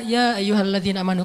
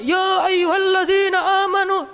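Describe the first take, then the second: First: It is said softly, in a sad voice. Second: It is said loudly, like a shout. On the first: The speaker calls it right. "bacalah Al-Qur'an dengan suara sedih" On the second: The speaker calls it wrong. "Bukan dengan suara teriak"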